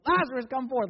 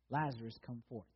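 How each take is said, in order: First: High, loud mock shout; booming acted summons, pitch raised. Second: Said in the usual way. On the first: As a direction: shout it as if to someone hard of hearing. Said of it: "Like, he couldn't hear him". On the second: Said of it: "he cried with a loud voice".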